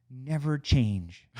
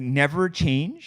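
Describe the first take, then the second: First: "never change" stretched slowly with weight on "never"; slow, drawn-out "never change". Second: "Never change" louder and slow, rising at the end; incredulous "never change". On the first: Retold or imitated. Reading a coworker's farewell note: slow "never change". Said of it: "P S". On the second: Shown as a demonstration. Echoing the farewell note to his friend, appalled and slow.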